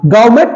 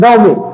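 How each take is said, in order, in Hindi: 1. अंतिम T की ध्वनि बोली जाती है। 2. अंतिम T की ध्वनि साइलेंट है। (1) "गवर्नमेंट नहीं है" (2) "बल्कि गांव में"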